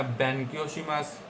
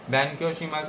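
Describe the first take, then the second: First: बैंक्योशीमस said slowly and softly, syllable by syllable; slow careful pronunciation. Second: Said in the usual way. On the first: Shown as a demonstration. Teacher modelling the Japanese word for students, slow and soft. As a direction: spell out बैंक्योशीमस slowly so students can copy.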